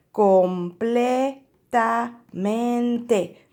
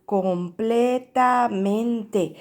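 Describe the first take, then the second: First: Completamente stretched very slowly, each syllable separated; drawn out word. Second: Completamente stretched very slowly, syllable by syllable; drawn out word. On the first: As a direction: sound out completamente slowly for the class. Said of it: "Vamos a decir". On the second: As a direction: spell completamente out slowly in sound. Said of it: "Miren esta palabra". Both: Shown as a demonstration.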